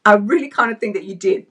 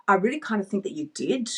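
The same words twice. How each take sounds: First: "I really kinda think that you did" said louder and firmer; knowing, pointed retort; louder repeat. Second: Said in the usual way. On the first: Shown as a demonstration. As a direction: press the line home, louder. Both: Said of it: "repeated louder".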